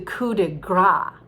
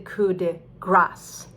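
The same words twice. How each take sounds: First: The final S sound of grace is dropped. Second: The final S sound of grace is pronounced. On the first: The speaker calls it wrong. "a lot of people are afraid about the, the French endings... they say the coup de grace" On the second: The speaker calls it right. "but it's actually the coup de grace"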